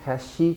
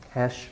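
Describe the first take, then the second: First: An extra vowel is added after the final sound. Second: The word ends cleanly on the final consonant. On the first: The speaker calls it wrong. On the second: The speaker calls it right.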